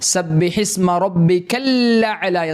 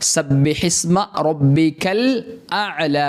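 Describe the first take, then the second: First: The l is doubled with no glottal stop. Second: A glottal stop comes after the l. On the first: The speaker calls it wrong. "ഹംസയെ ഒഴിവാക്കിയിട്ട് ലാമിന് ശബ്ദ കൊടുത്തിട്ട് രണ്ട് ലാമാക്കിയിട്ട്" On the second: The speaker calls it right. "ഹംസ അവിടെ ഉണ്ട്"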